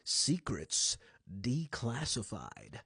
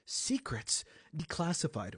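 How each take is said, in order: First: It is said in a dark, brooding voice. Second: It is said in an ordinary speaking voice.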